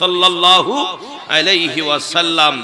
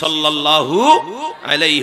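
First: The phrase is said noticeably louder. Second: The phrase is said at normal loudness.

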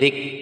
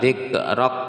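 First: The k is released with escaping breath. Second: The k is released with a bouncing echo. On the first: The speaker calls it right. "Ada udara yang keluar, zik dibuka dikit" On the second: The speaker calls it wrong. "ingat ini bukan qalqalah, jadi bukan dzikrak"

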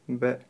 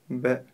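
First: The sound ends with the lips kept closed. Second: The sound ends with the lips kept closed.

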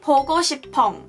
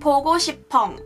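The two takes are said the same way.

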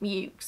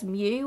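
First: The name ends in a ks sound. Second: The name ends in a plain vowel sound. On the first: This is how the family itself said the name. The speaker calls it right. "this specific family pronounced it Mukes" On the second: This is the expected reading of the French spelling. The speaker calls it wrong. "which you would think would be pronounced as Mew, as it is a French spelling"

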